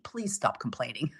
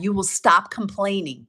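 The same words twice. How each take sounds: First: Much lower and softer, a gentle begging please. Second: Said in the usual way. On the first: Shown as a demonstration. Coach pleading with her group, soft and low. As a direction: drop way down and plead softly. Soft plea after firm statement.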